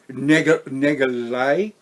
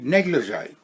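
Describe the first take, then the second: First: The word is broken off and garbled. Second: The word is said smoothly and fully. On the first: The speaker calls it wrong. "do you think as a twelve year old I could pronounce that word?" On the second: The speaker calls it right. "that I can pronounce now easily"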